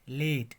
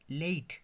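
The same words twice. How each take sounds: First: The vowel is a single pure vowel. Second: The vowel glides as a diphthong. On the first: The speaker calls it wrong. "हम बोलते हैं लेट" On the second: The speaker calls it right. "ये diphthong ए"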